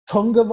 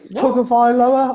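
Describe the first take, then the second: First: The first syllable has an added n sound. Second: The first syllable has no n sound. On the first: The speaker calls it wrong. "they seem to pronounce it with a letter in there that doesn't appear in there" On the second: The speaker calls it right. "There ain't no N in tug"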